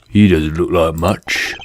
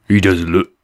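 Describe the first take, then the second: First: Lightly lowered gruff fox voice; a hint of a tough street fox; the fox trying to sound tough; Finnick's voice. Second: Said in the usual way. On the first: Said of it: "this is gonna be Finnick's voice from now on". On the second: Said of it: "there's no way I can do that voice".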